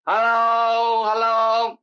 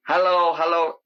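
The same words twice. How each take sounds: First: Loud, high, long-drawn call; shouted hello. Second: Said in the usual way. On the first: Acted. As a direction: holler it out as if to someone far away. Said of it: "If you just shout". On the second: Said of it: "shout inside the telephone".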